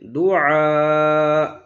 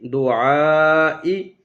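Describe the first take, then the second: First: The word ends without the final vowel. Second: The word ends with a final vowel sounded. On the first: This is the form used when stopping. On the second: This is the connected form used mid-recitation.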